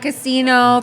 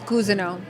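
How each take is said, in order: First: The surname sounds like the word casino. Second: The surname sounds like cousin followed by oh. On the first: The speaker calls it wrong. "everyone will say Tashara Casino from Las Vegas" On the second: The speaker calls it right. "but the real pronunciation is Cousineau"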